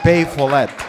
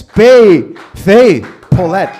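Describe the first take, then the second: First: Said in the usual way. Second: Loud drawn-out name call; big announcer intro. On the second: Shown as a demonstration. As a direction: belt her name to the room. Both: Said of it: "Just said your name wrong".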